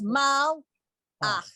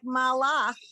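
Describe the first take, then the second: First: There is a sharp stop after the L. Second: The sounds run together without a stop. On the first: The speaker calls it right. "come to a dead stop after the uh, the L sound so that it's mal ach" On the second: The speaker calls it wrong. "the way you said it, it sounded to me like malach"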